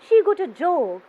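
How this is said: The pitch falls at the end. "towards the end of my sentence, my voice is going down"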